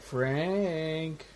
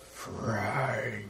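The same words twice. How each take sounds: First: Put-on soft, lilting call of a name, like calling a kid out to play; lightly imitating a Cenobite calling the name softly; light child-like call. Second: Lower, much softer, flat delivery of the name; mildly imitating the movie's dull Cenobite call. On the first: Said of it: "calls his name lightly as if calling a child out to play". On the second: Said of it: "instead it's like".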